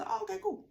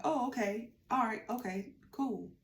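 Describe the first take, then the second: First: High, mocking sing-song okay cool; imitating her lazy reply with a high mock lilt; mock dismissive. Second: Said in the usual way. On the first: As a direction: parody her offhand brush-off, pitched way up. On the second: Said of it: "And so she was like".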